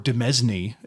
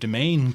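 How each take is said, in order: First: The word sounds different from 'domain'. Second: The word sounds just like 'domain'. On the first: The speaker calls it right. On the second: The speaker calls it wrong.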